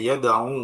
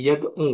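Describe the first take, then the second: First: "yada'u" ending on a long u; long final u. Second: "yad'u" ending on a short u; short final u. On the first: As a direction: hold the waw at the end of "yada'u". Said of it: "huruf akhirnya berupa waw". ("yada'u" dengan u akhir panjang) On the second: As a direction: drop the long waw, finish "yad'u" on a short u. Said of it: "wawnya dibuang". ("yad'u" dengan u akhir pendek) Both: Shown as a demonstration.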